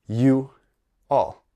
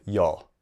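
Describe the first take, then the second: First: "you all" as two separate words, pause between; uncombined form. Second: "y'all" said as one syllable; combined form. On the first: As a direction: split it apart: "you", a clear pause, then "all". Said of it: "the uncombined form". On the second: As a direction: run it together into a single word, "y'all". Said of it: "the uncombined form of". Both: Shown as a demonstration.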